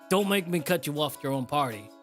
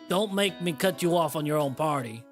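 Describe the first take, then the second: First: It is spoken in the speaker's normal accent. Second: It is spoken with a Southern American accent. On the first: "my New York accent is just my voice" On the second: "I made him southern"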